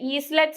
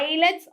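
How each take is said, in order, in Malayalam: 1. l ന് മുൻപ് s ശബ്ദം കേൾക്കുന്നു. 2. l ന് മുൻപ് s ശബ്ദം കേൾക്കുന്നില്ല. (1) "ഈസ്ലെറ്റ്സ് എന്ന് വായിക്കരുത്" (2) "എസ് സൈലന്റ് ആണ്"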